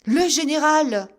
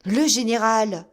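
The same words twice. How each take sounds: First: Loud, high alarmed shout; startled cry. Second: Louder, dismayed repeat; echoed alarm. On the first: Officer shocked to see the general, crying out. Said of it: "cria Digby". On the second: Soldiers repeating the alarm, louder. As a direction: echo in dismay. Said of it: "répétèrent les soldats". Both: A narrator's reading.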